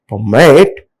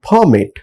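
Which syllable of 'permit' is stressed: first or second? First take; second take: second; first. First: The stress is on the second syllable. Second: The stress is on the first syllable. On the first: The speaker calls it right. "second syllable takes stress for verbs" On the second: The speaker calls it wrong. "they are highlighting first syllable"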